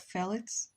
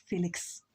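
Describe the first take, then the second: First: Said in the usual way. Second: "Felix" said FEE-liks, long ee in the first syllable; Russian Felix. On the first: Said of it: "instead of Felix". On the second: Shown as a demonstration. Liking the Russian sound of her name, says "Felix" as FEE-liks. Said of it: "I like how it sounds like Felix".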